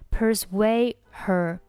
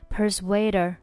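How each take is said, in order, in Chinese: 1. persuade 末尾的 d 不发音。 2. d 连到 her 里，her 的 h 不读。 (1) "persuade 末尾的不发音" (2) "可以选择连读，注意这边击穿"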